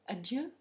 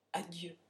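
First: Questioning echo with a rising end; mildly astonished query. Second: Soft, low mild stammer; a subdued, faltering farewell. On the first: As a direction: throw the word back as a puzzled question. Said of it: "un geste d'étonnement infini". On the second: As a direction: murmur the goodbye low and softly, lightly faltering. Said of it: "bégaya-t-il". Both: A narrator's reading.

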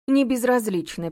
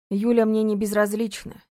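First: Slow sneering echo of "Не безразлична"; mock his words; mocking mimicry. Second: Said in the usual way. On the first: A narrator's reading. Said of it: "передразнила Олега женщина". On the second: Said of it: "передразнила".

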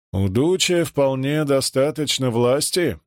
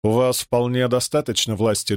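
First: Sarcastic. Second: Said in the usual way. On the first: A narrator's reading. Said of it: "саркастически переспросил Муссолини". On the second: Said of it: "генерал глубоко вздохнул и ответил".

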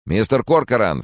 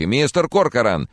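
First: Raised, louder calling; urgent call. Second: Louder, higher call; urgent call. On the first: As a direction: snap him out of it. Francis shaking him. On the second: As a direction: shout to shake him out of grief. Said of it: "уже тряс его за плечи". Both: Acted.

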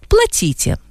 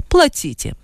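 First: Higher curt order. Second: Curt order. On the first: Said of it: "сказала первая". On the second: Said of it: "сказала вторая". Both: A narrator's reading.

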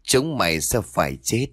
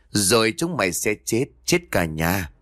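First: A hint of a dark spirit's voice; lightly voiced curse from something else inside her; gloomy otherworldly voice. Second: Lightly voiced threat of death to the whole family; gloomy otherworldly voice. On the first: Possessed mistress cursing the cook's household, lightly eerie. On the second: Possessed mistress finishing her curse on the household, lightly eerie. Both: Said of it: "Một giọng âm u được phát ra như của một kẻ khác".

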